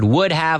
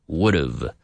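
First: Both words are said in full, uncontracted. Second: The words are contracted into one reduced word. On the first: "would have almost always gets contracted" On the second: "contracted to would have"

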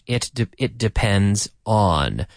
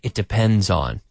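First: The words are said separately, not linked. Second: The words are linked together smoothly.

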